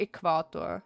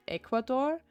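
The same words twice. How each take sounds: First: "Equator" stressed on its middle syllable; second-syllable stress. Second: "Ecuador" stressed on its first syllable. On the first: Streamer trying the other emphasis, second-syllable stress. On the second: Streamer wondering where the emphasis goes, first-syllable stress. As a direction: hit the opening syllable of "Ecuador". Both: Shown as a demonstration. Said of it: "Where do you put the emphasis?".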